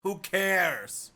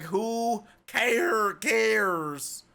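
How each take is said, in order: First: Said in the usual way. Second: "who cares" stretched very long and higher; slow, high, hammed-up "who cares"; exaggerated who cares. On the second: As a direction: drag out both words of "who cares". Exaggerated repeat of dismissive question.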